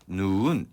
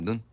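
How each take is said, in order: First: The vowel is drawn out long. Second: The vowel is held short. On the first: It means snow falling from the sky. "이런 식으로 길게 발음을 하는 건" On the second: It means the eye. "짧게 발음하라는 눈"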